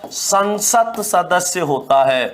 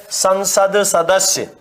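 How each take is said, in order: First: संसद said slowly with the final d turned into an unvoiced "t", "sansat sadasya"; संसद सदस्य with a hard t before the s; correct form. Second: संसद said slowly with a voiced "d", "sansad sadasya"; संसद सदस्य drawn out with a clear d; wrong form demo. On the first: Teacher giving students the correct संसद सदस्य. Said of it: "तय हो जाएगा". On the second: Teacher slowly writing out the mistaken संसद सदस्य. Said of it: "तो संसद सदस्य नहीं होता". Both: Shown as a demonstration.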